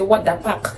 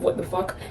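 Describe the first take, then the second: First: The last word begins with a P sound. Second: The last word begins with an F sound. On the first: "they say" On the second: "instead of"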